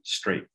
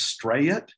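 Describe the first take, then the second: First: The name is said plainly, Midwestern style. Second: The name is drawn out, not Midwestern. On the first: "Most of us in the Midwest might say straight" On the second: "she introduces herself and she says"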